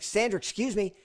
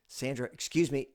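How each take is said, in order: First: It is said loudly and insistently. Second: It is said fairly quietly.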